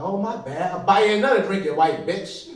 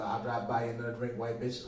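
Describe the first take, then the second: First: Raised, loud comic comeback; mock indignant retort. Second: Said in the usual way. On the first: Drinker offering replacement drink, mock indignant. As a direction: snap back loudly with a grudging offer. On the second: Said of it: "I didn't say that, but I gave it to her".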